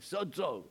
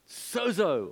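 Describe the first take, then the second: First: The word is said with a Greek pronunciation. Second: The word is said with an English pronunciation. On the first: The speaker calls it right. "it's actually sozo, if you say it correctly in the Greek" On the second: The speaker calls it wrong. "Remember that word"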